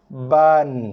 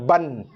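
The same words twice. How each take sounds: First: Ba is held one beat, then n. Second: Ba runs straight into n without holding. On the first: The speaker calls it right. "bunyikan dia satu harakat dulu dengan baris atas satu" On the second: The speaker calls it wrong. "bukannya ban, bukannya macam ni"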